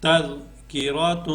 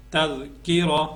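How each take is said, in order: First: تر کی را تو with a long nasal "toon" ending; joined reading with tanween. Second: تذکرہ ending short on h, no "toon"; waqf, pausal reading. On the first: Teacher reading the full word, long nasal end on تر کی را تو. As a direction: hold the final nasal of تر کی را تو. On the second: Teacher showing how to pause, تذکرہ closed on h. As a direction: stop تذکرہ on a breathed h. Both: Shown as a demonstration. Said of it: "وقف کریں گے تو پھر".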